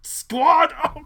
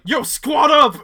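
First: High, loud hype shout; pumped-up bro cheer; frat bro. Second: High, loud hype call; frat bro. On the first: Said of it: "And it's like". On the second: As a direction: bro yelling to the squad. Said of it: "Andrew was like". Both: Retold or imitated.

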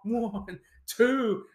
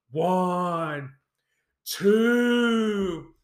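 First: Said in the usual way. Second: Mock slow count. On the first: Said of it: "The referee issues the count". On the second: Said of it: "they go so slow".

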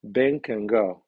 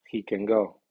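First: "Ben" loud and drawn out, "can" weak; strongly accented "Ben" opening the statement; strong stress on name. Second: "He" only moderately accented, stress falls on "go"; medium stress on pronoun. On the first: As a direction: hit "Ben" hard and slow, reduce "can". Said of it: "El nombre lleva acento fuerte". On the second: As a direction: keep "He" light, "can" weak, land on "go". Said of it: "el pronombre ... lleva acento medio". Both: Shown as a demonstration.

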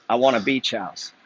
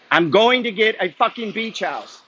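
First: Said in the usual way. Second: Fired-up declaration. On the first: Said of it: "escalating repeat". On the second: Real, not acted. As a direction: pump yourself up, drawn out and forceful. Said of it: "Like, energy".

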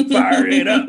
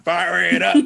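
First: High shouted chant; shouted hook. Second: Half-sung, building; chanted hook. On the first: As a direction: belt the hook out. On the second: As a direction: chant of the song's line. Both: Retold or imitated.

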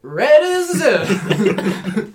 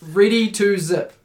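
First: "Ready to zip" as a slow, high, slurred yell; screaming it down. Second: "Ready to zip" loud and high, each word separate; clear correction. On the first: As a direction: imitate a kid hollering "Ready to zip" garbled. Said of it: "She was, like, screaming it down". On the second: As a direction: carefully enunciate "Ready to zip" for a kid. Corrects kid with clearly separated words. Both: Retold or imitated.

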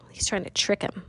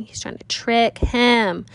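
First: Said in the usual way. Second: "trick him" slow and spaced out, both words stressed; emphatic repeat. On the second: Real, not acted. Teacher driving the point home to listeners, "trick him" slowly stressed.

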